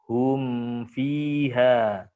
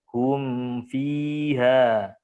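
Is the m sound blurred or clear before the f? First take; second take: clear; clear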